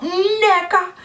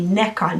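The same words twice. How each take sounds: First: "Neka" slowed and raised, mimicking the teacher; teacher's pronunciation. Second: "Neka" said plainly, the family way; family pronunciation. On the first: Contrasting the teacher's version of her name, exaggerated. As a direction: drag "Neka" out the mispronounced way. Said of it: "not Neka". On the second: Telling viewers how her family says her name, plainly. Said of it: "My family call me Neka". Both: Shown as a demonstration.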